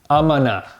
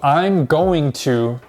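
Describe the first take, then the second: First: 'Going to' is shortened to 'gonna'. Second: 'Going to' is said in full.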